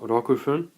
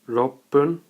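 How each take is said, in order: First: The number is said in full before fun. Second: The number is shortened with a doubled p sound. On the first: The speaker calls it wrong. "not rokufun" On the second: The speaker calls it right.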